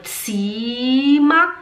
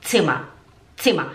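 First: Slow, rising "tsiiiima"; wrong long vowel. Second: Short I in "Zimmer"; low, quick "tsimma"; correct short vowel. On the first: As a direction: drag the I of "Zimmer" very long. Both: Shown as a demonstration. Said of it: "Agora tem dois M's".

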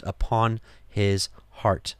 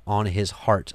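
First: "upon his heart" said slowly, each word weighed; slow emphatic repeat. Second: Said in the usual way. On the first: Shown as a demonstration. Preacher lingering on "upon his heart" to make it land. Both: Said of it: "which is, again".

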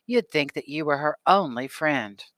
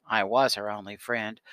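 First: "You'd" leaned on, falling at the end; "You'd" weighted, line falls away; stress on you'd. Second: "was" hit hard in protest; "I was" insisted on firmly; stress on was. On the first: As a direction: push the word "You'd". Mother stressing Annie as only friend. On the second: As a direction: punch "was" to contradict her. Annie retorts, contradicting mother. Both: A narrator's reading.

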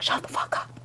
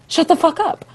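First: Whispered, breathless disbelief; awed whisper. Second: High, loud thrilled disbelief; excited scream. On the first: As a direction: hush it like you're too stunned to speak. Friend whispers in awe. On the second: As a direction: shout it like you can't believe the news. Friend screaming at news. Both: Retold or imitated.

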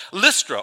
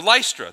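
First: Short i in "Lystra", rhyming its start with "list"; short-i pronunciation. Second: Long i in "Lystra", first syllable like "lice"; long-i pronunciation. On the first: Preacher names the next town, "Lystra" said LISS-truh. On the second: Preacher offers the other pronunciation, "Lystra" said LICE-truh. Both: Shown as a demonstration. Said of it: "depending upon how you want to pronounce it".

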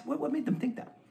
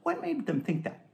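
First: Higher, incredulous question. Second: Said in the usual way. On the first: Shown as a demonstration. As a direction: push the question up in disbelief.

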